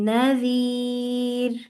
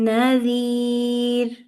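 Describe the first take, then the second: No difference in how they are said.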